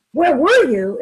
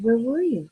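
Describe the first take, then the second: First: Louder, sharp accusing question; accusing demand. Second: Kind gentle tone. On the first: Partner home late, demo of the harsh version, loud and accusing. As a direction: snap it out as a reproach. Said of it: "Instead of saying". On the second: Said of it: "kind, gentle tone of voice". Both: Shown as a demonstration.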